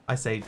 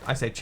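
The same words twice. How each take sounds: Both takes have the same delivery.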